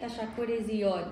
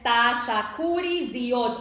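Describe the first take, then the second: First: It is said with the mouth nearly closed. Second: It is said with the mouth wide open.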